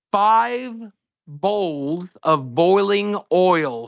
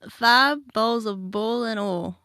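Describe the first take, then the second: First: Drawn out, each word set apart; slow deliberate phrase. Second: Forced Appalachian accent. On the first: Host asking a guest to repeat a test phrase, slow and deliberate. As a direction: say it slowly, word by word. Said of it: "say the phrase". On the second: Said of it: "You forced that a little bit there". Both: Shown as a demonstration.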